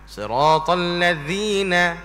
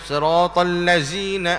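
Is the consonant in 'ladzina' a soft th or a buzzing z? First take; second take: soft th; z. First: The consonant is a soft th, tongue tip out. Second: The consonant is a buzzing z, tongue tip in. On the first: The speaker calls it right. "zi tu kena sebut dengan keluarkan hujung lidah kita" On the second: The speaker calls it wrong. "Jangan ... ah tu tak"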